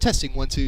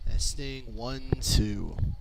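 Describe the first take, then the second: First: The voice is at a higher, turned-up level. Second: The voice is at the lower, original level.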